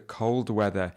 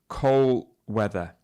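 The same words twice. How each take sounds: First: The D at the end of cold is clearly pronounced. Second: The D at the end of cold is dropped. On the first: The speaker calls it right. "So it should be cold, da, da" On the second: The speaker calls it wrong. "She said cold weather, and it's this D sound that sometimes is missing"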